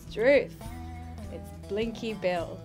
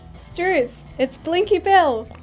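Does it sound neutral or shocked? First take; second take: neutral; shocked. First: It is said in a neutral tone. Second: It is said in a shocked tone.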